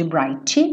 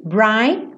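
First: "bright" ending in an added "chi"; lower, mock "brightchi"; wrong bright with extra vowel. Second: "bright" opened on the I, straight to the T; crisp "bright", no added vowel; clean final T. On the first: Teacher showing students the pronunciation to avoid. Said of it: "Nada de bright". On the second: Teacher modeling the correct word for students. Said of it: "já vai direto pro T". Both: Shown as a demonstration.

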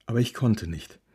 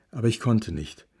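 The two takes are said the same way.

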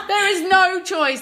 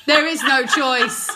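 First: "no" hit high and slow; emphatic repeat. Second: Said in the usual way. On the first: Real, not acted. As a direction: lean hard on "no", slow and high.

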